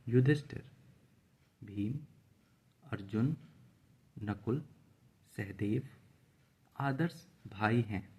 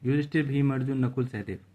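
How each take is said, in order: First: Short pauses separate each of the names. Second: The names run together without pauses.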